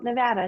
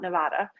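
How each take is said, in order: First: It uses the pronunciation local residents use. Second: It uses a pronunciation local residents avoid. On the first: This is how residents say it. The speaker calls it right. "the people from Nevada call it Nevada" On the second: Residents do not say it this way. The speaker calls it wrong. "not Nevada"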